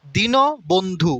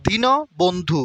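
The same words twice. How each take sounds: First: দীন বন্ধু spoken very slowly, each part clear; slow model word. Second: Said in the usual way. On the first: Shown as a demonstration. Teacher spells out দীন বন্ধু for students, slow. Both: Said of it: "নয়ের নিচে হসন্ত আছে".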